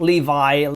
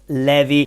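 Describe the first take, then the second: First: The name is said like the English jeans brand. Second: The name is said with Italian vowels. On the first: The speaker calls it wrong. "It's not Levi, not like the jeans" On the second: The speaker calls it right. "In Italian it's pronounced Levi"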